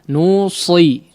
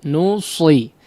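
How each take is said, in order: Both takes have the same delivery.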